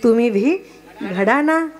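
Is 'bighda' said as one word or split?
split. It is split as 'bhi ghada'.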